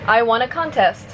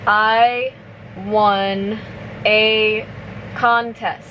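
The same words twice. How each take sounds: First: The sentence is spoken at normal speed. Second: The sentence is spoken slowly. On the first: "one more time at normal speed" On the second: "So I'll say it slowly first"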